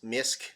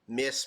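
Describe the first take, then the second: First: It is said as one syllable ending in k. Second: It is said as one syllable ending in s. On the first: "Maybe it's Misk" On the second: "maybe the C's silent"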